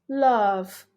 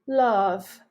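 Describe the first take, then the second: No difference in how they are said.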